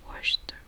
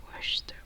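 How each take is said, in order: No difference in how they are said.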